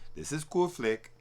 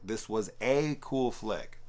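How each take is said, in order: First: It is said in a Borat-like voice. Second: It is said in his normal voice.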